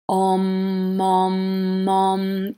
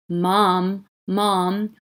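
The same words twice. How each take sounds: First: Chanted, Om held on one steady note, run together; repeated Om chant. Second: "Mom" said as a separate spoken word; Om heard as Mom. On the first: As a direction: chant Om over and over without a break. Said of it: "if you repeat that sound". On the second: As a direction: say "Mom" clearly, pausing after each one. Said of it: "sounds like someone saying". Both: Shown as a demonstration.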